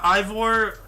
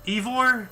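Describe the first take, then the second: First: Ivor said as EYE-vor, slow and drawn out; first guess at the name. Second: Ivor said as EE-vor, with a short EE at the start; second guess at the name. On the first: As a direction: stretch Ivor slowly with a long EYE at the start. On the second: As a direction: try Ivor again, now starting with EE. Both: Shown as a demonstration. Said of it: "however you pronounce his name".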